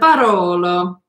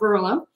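First: It is said with an Italian accent. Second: It is said with an English accent.

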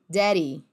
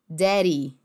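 Both takes have the same delivery.

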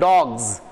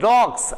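First: The word ends with a buzzing z sound. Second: The word ends with a hissing s sound. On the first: The speaker calls it right. "I'm saying dogs" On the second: The speaker calls it wrong. "I'm not saying dogs"

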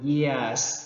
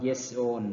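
First: Each word is said apart with a break. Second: The two words run together without a break. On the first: "คันเฮาเว้าแยกเป็นแต่ละคำก็คือ" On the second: "ภาษาฝรั่งมันจะเว้าควบไปเลยมันสิว่า"

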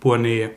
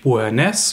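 First: The name ends without an s sound. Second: The name ends with a clear s sound. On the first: The speaker calls it right. "sondern Beauharnais" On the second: The speaker calls it wrong. "wie ich gesagt habe, mit dem S betont am Ende"

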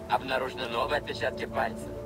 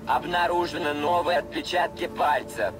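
First: It is said at a normal volume. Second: It is said noticeably louder.

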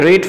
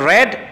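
First: The vowel sounds like 'ee'. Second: The vowel sounds like 'eh'. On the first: It is the present form. "শুরুর ঘরে রিড" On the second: It is the past form. "বাদর দুয়া জিন আছে হিনর ঘরে রেড"

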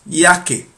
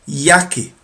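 No difference in how they are said.

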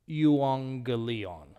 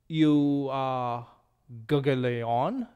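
First: The first gamma is said as an n. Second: The first gamma is said as a hard g. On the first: The speaker calls it right. "The first G takes on the N sound" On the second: The speaker calls it wrong. "this is not you gugleon"

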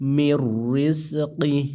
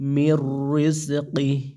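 Both takes have the same delivery.

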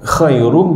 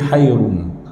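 First: The word begins with a harsh kh sound. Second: The word begins with a soft h sound. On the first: The speaker calls it right. "ha bukan kha" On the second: The speaker calls it wrong. "ha bukan kha"

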